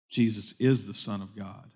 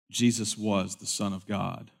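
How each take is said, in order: First: Quiet, low line leaning on "is"; stress on is. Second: Quiet, low line leaning on "was"; stress on was. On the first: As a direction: give "is" the weight, softly and solemnly. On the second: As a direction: give "was" the weight, softly and solemnly. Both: Real, not acted. Restated with was, then is.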